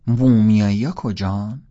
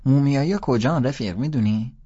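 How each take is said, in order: First: Slow, loud mock question; teasing repeat. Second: A high, loud schoolboy question; a kid pestering a stranger, pitched up and loud; kid asking loudly. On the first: Holden teasing the boys about the mummies, slow and loud. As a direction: drag it out loudly to tease the kid. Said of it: "از یکیشون پرسیدم". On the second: Boy asks Holden where the mummies are, high and loud. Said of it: "دوباره پرسید". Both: A narrator's reading.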